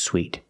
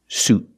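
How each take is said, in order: First: It is said with an ee vowel, like sweet. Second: It is said with a long oo vowel. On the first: The speaker calls it wrong. "This word is not pronounced sweet" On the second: The speaker calls it right. "We use the long oo sound like moon and food"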